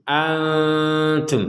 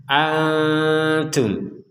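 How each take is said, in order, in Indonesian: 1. N-nya disamarkan dan ditahan sebentar secara sengau. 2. N-nya disamarkan dan ditahan sebentar secara sengau.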